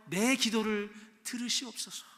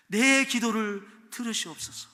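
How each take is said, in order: First: Said in the usual way. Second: Pleading cry. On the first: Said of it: "내 기도를 들어달라고". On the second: Acted. Psalm cry read out.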